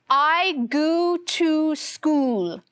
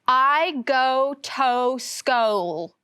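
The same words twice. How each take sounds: First: Both go and to have the oo sound. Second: Both go and to have a long O. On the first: "with all of the O's saying the oo sound" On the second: "reading it with the long O sound"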